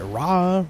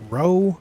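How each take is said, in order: First: The vowel sounds like 'ah'. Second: The vowel sounds like 'oh'. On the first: "That's how I pronounced it first" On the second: "I feel like Ro because A U is often pronounced O"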